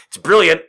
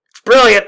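First: Praising it loudly; enthusiastic. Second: Much higher and louder, emphatic; shouted praise. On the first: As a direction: sell it with energy. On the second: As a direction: shout it in delight. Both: Real, not acted.

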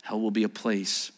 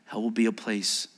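No difference in how they are said.

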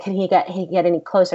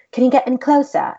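First: Said in the usual way. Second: Higher, louder mock British accent; bad British accent. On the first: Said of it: "he's British". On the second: Director asking actors for more, in bad British accent. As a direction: put on a clumsy British accent. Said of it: "doing a very horrible job at a British accent".

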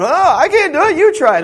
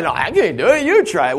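First: Much higher and louder, whiny passing of the buck; a frantic disciple pushing the job onto a friend; hammed-up flustered disciple shoving off the task; panicky disciple. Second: Higher and louder but a notch calmer, batting it back; the other disciple refusing in turn; mock flustered reply from a second disciple; second panicky disciple. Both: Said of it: "They were too busy going".

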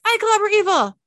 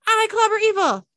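First: Loud high toy voice, stress on I; action figure doll voice. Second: Loud high toy voice, stress on clobber; action figure doll voice. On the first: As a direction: blare it like a talking toy. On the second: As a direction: repeat it like a toy loop. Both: Acted. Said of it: "The action figure doll's voice says".

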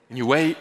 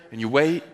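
No difference in how they are said.

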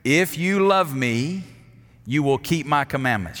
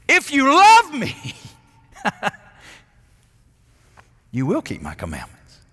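First: Said in the usual way. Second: "love" in "If you love me" lifted high and loud, then dropped; stress on LOVE. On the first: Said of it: "If you know it, say it with me". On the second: Shown as a demonstration. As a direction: hit the word "love" hard and high, then let the rest of the line fall. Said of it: "Here's what he said".

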